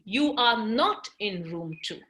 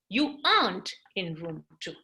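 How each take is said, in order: First: Are and not are said as two full words. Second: Are and not merge into one syllable.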